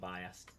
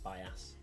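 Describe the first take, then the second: First: The word ends with an added D sound. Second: The word ends without any D sound. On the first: The speaker calls it wrong. "Didn't like me saying biased instead of bias" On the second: The speaker calls it right. "without the D, just bias"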